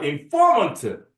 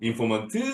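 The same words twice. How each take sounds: First: The stress falls on the middle syllable. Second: The stress falls on the last syllable. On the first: The speaker calls it right. "폼에 들어있습니다" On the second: The speaker calls it wrong. "항상 D를 높이더라고"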